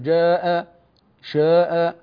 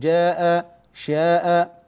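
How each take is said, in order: First: The long a vowel sounds heavy and darkened. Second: The long a vowel sounds light and thin. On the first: The speaker calls it wrong. "لا نقول مثلا جاء شاء هكذا" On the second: The speaker calls it right. "نقول جاء شاء"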